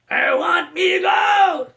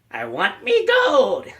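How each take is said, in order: First: Very high, slow shouted leprechaun. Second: High, slow leprechaun growl; Warwick Davis leprechaun. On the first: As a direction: bellow for his gold like a greedy leprechaun. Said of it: "doing an impersonation of Warwick Davis' voice of the leprechaun". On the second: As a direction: squeeze it up into a greedy little leprechaun. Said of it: "I'm gonna do an impersonation of Warwick Davis". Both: Retold or imitated.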